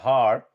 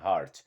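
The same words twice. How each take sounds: First: The final T is dropped or barely heard. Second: The final T is clearly pronounced. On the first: This is how a native speaker says it. "Ele vai falar heart" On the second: This is how the word reads from its spelling. "Se você ler, não tem problema"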